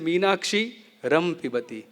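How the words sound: The word break comes right after 'Meenakshi'. The speaker calls it wrong.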